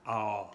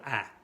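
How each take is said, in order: First: "A" said long and rounded, towards "aw"; rounder A. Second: "A" said short and open; unrounded A. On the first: Teacher showing the circumflex sound, long round "A". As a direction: round and lengthen the "A". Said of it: "A, pero más redonda". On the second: Teacher showing what to avoid, short open "A". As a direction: keep the "A" short, no rounding. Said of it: "no A". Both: Shown as a demonstration.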